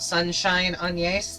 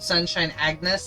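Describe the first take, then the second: First: The name is said with a French pronunciation. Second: The name is said with an English pronunciation. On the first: The speaker calls it right. "Apparently it's French" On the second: The speaker calls it wrong. "that I always called"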